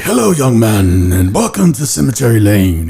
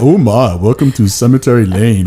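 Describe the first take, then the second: First: Slow, drawn-out early American welcome; put-on early American conductor's character accent. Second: Badly put-on cartoon welcome; terrible cartoonish first-attempt voice; Hanna-Barbera character. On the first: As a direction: greet guests in a stretched old-time American accent. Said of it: "like, an early American accent". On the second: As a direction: greet like a hammy cartoon character. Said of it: "a character from Hanna-Barbera". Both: Shown as a demonstration.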